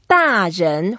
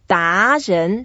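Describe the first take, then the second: First: The first syllable has a falling fourth tone. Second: The first syllable has a rising second tone. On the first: It means an adult. "when it's a fourth tone, 大, that means big" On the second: It means an expert. "second tone, that means I'm the expert"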